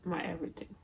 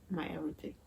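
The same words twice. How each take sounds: The two takes are said the same way.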